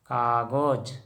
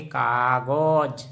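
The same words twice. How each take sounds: First: Said in the usual way. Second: कागज said very slowly as "kagoj", with an o in the second syllable; Assamese pronunciation, slow. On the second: Shown as a demonstration. Teacher spelling out कागज for viewers as a very slow, careful "kagoj". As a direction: drag out कागज as "ka-goj", syllable by syllable. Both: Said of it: "इसको उच्चारण हिंदी में ऐसे लिखेंगे".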